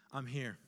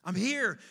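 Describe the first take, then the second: First: Low, soft answer; soft reassurance. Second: Firm, louder call; louder reassurance. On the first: Good Shepherd answering the lost man, softly reassuring. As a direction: quietly let them know you are near. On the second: Good Shepherd calling to the lost man, louder. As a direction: repeat it with more force. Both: Retold or imitated. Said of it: "it begins to get louder and louder".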